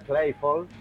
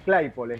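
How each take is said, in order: First: The name is not said as a Spanish esdrújula. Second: The name is said as a Spanish esdrújula. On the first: This is the older generation's pronunciation. "la vieja guardia fundadora, seguro iba a Claypole" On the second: This is the younger generation's pronunciation. "le ponemos el acento porque es esdrújula, es Claypole"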